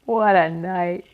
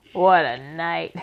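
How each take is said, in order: First: Slow, loud husky rasp. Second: Slow, loud husky rat voice. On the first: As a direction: rasp it out slowly. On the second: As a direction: drag it out huskily. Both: A narrator's reading. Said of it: "he said in a husky voice".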